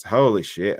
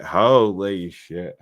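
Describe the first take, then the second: First: Said in the usual way. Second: Very slow stretched holy shit; tipsy slow drawl on holy shit; drawn out. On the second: Real, not acted. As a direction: drag out holy shit lazily. Repeats exclamation, drunk on birthday.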